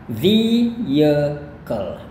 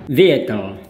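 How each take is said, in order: First: It is said in an American accent, longer vowel. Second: It is said in a British accent, shorter. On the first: "gaya U S... pakai i yang panjang" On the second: "Itu gaya British"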